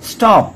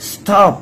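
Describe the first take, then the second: No difference in how they are said.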